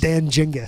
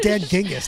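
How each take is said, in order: First: The name begins with a soft J sound. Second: The name begins with a hard G sound. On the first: The speaker calls it wrong. "like Jenga" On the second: The speaker calls it right. "it sounds ging"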